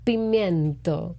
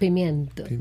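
First: The word is said slowly and drawn out. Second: The word is said at normal speed.

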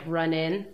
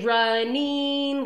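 First: The ending is a clipped 'in' sound. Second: The ending is a full, clear 'ing' sound. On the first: "he would try and get me to do it more like run in" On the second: "I would really like get the ing at the end"

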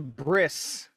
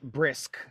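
First: The word ends with an s sound. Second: The word ends with a k sound. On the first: The speaker calls it right. "But it's a bris, not brisk" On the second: The speaker calls it wrong. "So no K?"

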